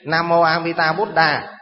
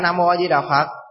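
First: It is pronounced closer to the original Sanskrit. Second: It is pronounced in the usual Vietnamese way. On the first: The speaker calls it right. "Nếu quý vị muốn niệm đúng thì giờ ở đây thầy chỉ đó, niệm như vậy đi" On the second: The speaker calls it wrong. "chứ không phải"

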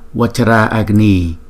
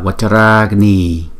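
First: The two a-sounds are said separately. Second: The two a-sounds merge into one long a. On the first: The speaker calls it wrong. "chúng ta không đọc là Vajra Agni" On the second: The speaker calls it right. "mà chúng ta đọc là Vajra Agni"

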